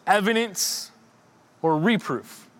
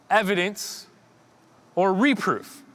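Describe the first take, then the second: No difference in how they are said.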